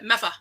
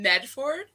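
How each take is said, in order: First: The middle consonants are dropped. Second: The middle consonants are pronounced fully.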